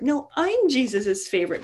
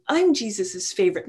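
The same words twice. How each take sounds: First: Contradicting, with "I'm" pitched higher and punched; arguing, stress on I'm. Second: First claim in a mock squabble; lightly boastful, staking the claim; mild bickering boast. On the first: Acted. Disciple retorting to a rival, argumentative stress on "I'm". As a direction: hit "I'm" hard to top the rival's claim. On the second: One disciple arguing with another, mild boast. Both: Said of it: "his disciples when they were arguing".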